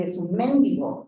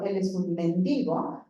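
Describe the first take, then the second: First: "mendigo" said as mendigó, a rising final syllable that is a touch louder; stress on the last syllable. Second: "mendigo" with the stress on the middle syllable, falling at the end; stress on men-DI-go. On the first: Lecturer contrasting the verb form for students, stress on GO. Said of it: "A decir". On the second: Lecturer showing students the noun form, stress on DI. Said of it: "no es lo mismo decir". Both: Shown as a demonstration.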